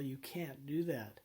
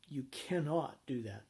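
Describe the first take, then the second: First: The negative is contracted into one short word. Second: The negative is fully enunciated as separate syllables. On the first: Listeners might mishear it as permission. The speaker calls it wrong. "If you use contractions like can" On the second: Listeners clearly hear it as a prohibition. The speaker calls it right. "You and you want to enunciate"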